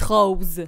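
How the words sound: It is said with a Québécois accent. "vous dites rose"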